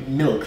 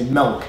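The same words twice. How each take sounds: First: "milk" with a short ih vowel; standard "milk". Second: "milk" said as "melk"; Michigan "milk". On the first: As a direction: say milk with the ih of "sit". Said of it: "that's how they say milk". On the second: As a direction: swap the vowel in milk to eh. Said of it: "They say milk". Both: Shown as a demonstration.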